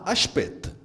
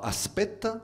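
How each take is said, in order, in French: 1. Le s devant une consonne se prononce sh. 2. Le s devant une consonne se prononce s. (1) "Les S devant les consonnes se prononcent ch" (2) "On ne dira pas aspect"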